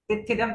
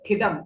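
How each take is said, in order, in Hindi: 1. इसे एक अतिरिक्त अक्षर के साथ बोला जाता है, ti-thi-dam। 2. इसे दो अक्षरों में बोला जाता है, thi-dam। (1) "टिथिदम तो गलत है" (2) "ठिदम में ट का साउंड उच्चारण है"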